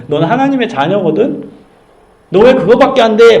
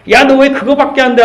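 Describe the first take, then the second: First: A warm nudge, stressing 왜 lightly; encouraging challenge. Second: High sharp scold, punching 왜; mock scolding. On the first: Retold or imitated. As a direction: remind them who they are. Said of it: "막 혼내는 게 아니라 정체성을 불어넣어주는 거예요". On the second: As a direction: scold the kid: 너 왜 그거밖에 안 돼?. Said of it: "하고 회초리 있다고 해야 변할까요?".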